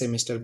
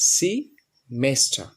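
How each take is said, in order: First: The first syllable sounds like 'seh'. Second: The first syllable sounds like 'see'. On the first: The speaker calls it wrong. "আমরা সবাই প্রায় সেমিস্টার বলি" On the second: The speaker calls it right. "সঠিক উচ্চারণ হচ্ছে সি মেস্টার"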